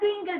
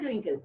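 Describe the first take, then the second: First: The first vowel is a long ee sound. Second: The first vowel is a short i sound. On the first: The speaker calls it wrong. "Not twinkle" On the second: The speaker calls it right. "Short I"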